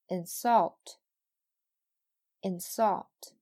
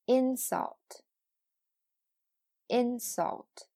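First: "insult" with light in, punched SULT; "insult" as a verb: in-SULT, said twice; verb stress on second syllable. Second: "insult" with high IN, falling on sult; "insult" as a noun: IN-sult, said twice; noun stress on first syllable. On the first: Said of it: "后边是动词". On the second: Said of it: "前面是名词，后边是动词". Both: Shown as a demonstration.

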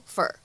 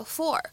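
First: "for" reduced to "fur"; American weak "for", sounding like "fur"; weak form of FOR. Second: Said in the usual way. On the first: Shown as a demonstration. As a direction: say "for" unstressed, as "fur". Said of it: "弱读会变成fur". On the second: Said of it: "我们呢可以弱读".

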